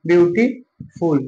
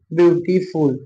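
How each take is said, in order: First: beautiful said slowly, each syllable clear; slow clear repeat. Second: Said in the usual way. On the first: Shown as a demonstration. Teacher to students, repeating beautiful slowly and clearly. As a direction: spell out beautiful slowly for the class. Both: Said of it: "क्या लिखा मैंने".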